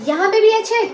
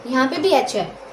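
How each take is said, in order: First: भी lifted higher and louder on यहाँ पे भी एच है; teacher pointing out that भी with a higher, louder voice; stressed repeat. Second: Said in the usual way. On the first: Shown as a demonstration. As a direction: lean hard on भी, higher and louder. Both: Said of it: "देखिए".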